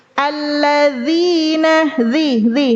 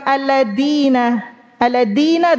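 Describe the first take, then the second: First: "alladzina" slow, dz as a voiced th, tongue at the teeth tips; proper zal. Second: "alladzina" with a hard d; tongue behind the teeth, a plain d in "alladzina"; dal for zal. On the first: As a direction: buzz the tongue on upper teeth in "zi". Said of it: "Merubah zal". ("alladzina" dengan zal di ujung gigi) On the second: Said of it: "Alladzina dal". ("alladzina" dengan zal berubah jadi dal) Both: Shown as a demonstration.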